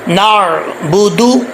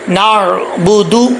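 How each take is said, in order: First: The word ends with an 'oo' vowel. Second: The word ends with an 'oo' vowel.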